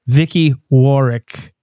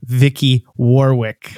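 First: The name is said in a British accent. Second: The name is said in an American accent.

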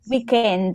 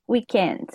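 First: It is said with an Italian accent. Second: It is said in standard English pronunciation.

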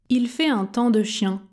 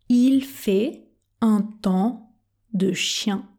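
First: The sentence is spoken at an ordinary conversational speed. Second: The sentence is spoken very slowly and carefully. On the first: "Vitesse normale maintenant ?" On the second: "on commence à la vitesse tortue"

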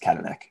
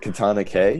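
First: The final K is joined into one word. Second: The final K is said as a separate letter. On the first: The speaker calls it right. "No, it's Katanak" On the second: The speaker calls it wrong. "Was it Katana K?"

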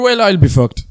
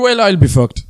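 First: It is said in a strong Irish accent. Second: The same.

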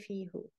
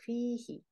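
First: The word ends with an 'oo' vowel. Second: The word ends with an 'ee' vowel. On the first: The speaker calls it wrong. "You cannot say fihu" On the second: The speaker calls it right. "will be pronounced he. So fihi"

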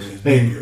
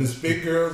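First: The voice drops down low and deep. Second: The voice stays at its normal pitch.

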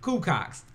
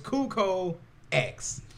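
First: The X is joined onto the word. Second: The X is said as a separate letter. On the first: The speaker calls it wrong. "Taz like to call it Cucox because it's an X on the end" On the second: The speaker calls it right. "But it's Cuco X"

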